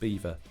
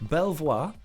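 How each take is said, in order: First: It sounds like the animal name beaver. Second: It is said as spelled, bel-vwar. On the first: This is how the name is really pronounced. "It's pronounced Beaver" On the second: This follows the spelling. "as it is written, that's what I used to call it"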